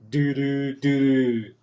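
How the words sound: It is said with a flat, unhappy tune. It fails to convey the intended joy. The speaker calls it wrong. "it doesn't sound happy"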